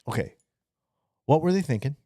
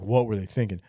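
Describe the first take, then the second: First: It sounds genuinely curious and open. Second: It sounds scornful and dismissive.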